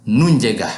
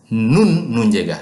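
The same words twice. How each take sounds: First: Said in the usual way. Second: Nun said first and stressed before nunjega; nun held and punched, nunjega lighter. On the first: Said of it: "For instance, I say". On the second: Shown as a demonstration. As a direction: lean on nun to mark who has it. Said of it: "when you want to emphasize".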